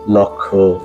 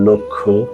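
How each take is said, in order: First: The first vowel is open, like 'aw'. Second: The first vowel is closed, like 'o'. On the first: The speaker calls it wrong. "এভাবে বলে থাকি, কিন্তু এই উচ্চারণটি সম্পূর্ণরূপে ভুল" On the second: The speaker calls it right. "সঠিক উচ্চারণ এখন আমি করছি"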